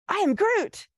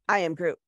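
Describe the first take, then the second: First: It sounds excited and eager. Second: It sounds bored and unimpressed.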